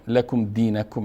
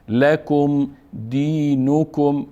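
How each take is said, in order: First: The n has no clear u vowel after it. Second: The n has a clear u vowel after it. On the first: The speaker calls it wrong. "برخی ها اشتباها لکم دینکم میخوانن" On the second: The speaker calls it right. "نون هم مضموم است و کاف هم"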